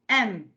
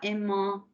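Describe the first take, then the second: First: The word ends in a plain consonant sound. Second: The word ends in a nasal vowel sound. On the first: The speaker calls it right. "Un N T se prononce E" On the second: The speaker calls it wrong. "on ne dit pas aimant"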